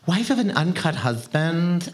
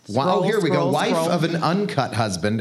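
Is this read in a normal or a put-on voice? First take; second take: put-on; normal. First: It is read in a put-on woman's voice. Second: It is read in the speaker's normal voice.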